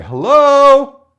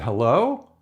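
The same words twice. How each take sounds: First: Much higher and louder, called out long. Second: Low, hesitant call into the dark; a careful, unsure hello; tentative hello. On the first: Scout calling to whoever is inside, loud call. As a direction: shout it into the house. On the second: Scout peeking into a strange shack, tentative. Knocking at a creepy open door. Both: Retold or imitated.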